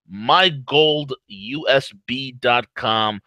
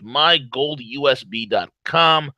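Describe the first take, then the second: First: Slow and deliberate; slow, spelling it out; slow emphasis. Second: Said in the usual way. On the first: Shown as a demonstration.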